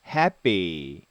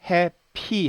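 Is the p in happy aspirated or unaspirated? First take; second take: unaspirated; aspirated. First: The p is soft and close to b. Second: The p is strong with a puff of air. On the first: The speaker calls it right. "happy라고 발음합니다. 쌍비읍 발음이 나는 거죠" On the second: The speaker calls it wrong. "이거를 happy 하지 않고"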